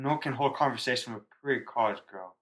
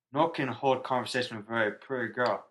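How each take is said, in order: First: Put-on drunk voice, pretty college girl. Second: Put-on slurred drunk repeat. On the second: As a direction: drunk voice again, very pretty girl. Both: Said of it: "In, in drunk voice".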